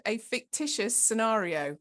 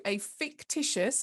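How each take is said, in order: First: Fictitious given a light, deliberate push; stress on fictitious. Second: Said in the usual way. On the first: Shown as a demonstration. Trainer stressing to the group that the case is made up, light stress on fictitious. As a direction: lean a little on the word fictitious. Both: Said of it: "and I'm gonna emphasize that word".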